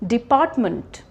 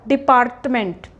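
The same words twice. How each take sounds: First: The R sound is silent. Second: The R sound is pronounced. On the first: The speaker calls it right. "so we will not stress on R" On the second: The speaker calls it wrong.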